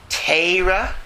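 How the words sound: The first vowel sounds like 'ay'. "if you're a Litvak"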